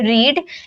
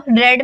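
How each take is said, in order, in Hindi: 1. स्वर लंबी 'ee' ध्वनि है। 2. स्वर छोटी 'e' ध्वनि है। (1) "फर्स्ट फॉर्म को हम बोलते हैं रीड" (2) "सेकेंड फॉर्म में रीड को रेड में प्रोनाउंस करते हैं"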